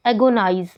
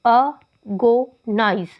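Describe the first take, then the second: First: Said in the usual way. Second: "agonize" broken into three slow, separate syllables; teacher counting out the syllables of "agonize". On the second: Shown as a demonstration. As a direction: say "agonize" as a... go... nize, pausing after each. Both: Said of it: "तीन syllable हो गए".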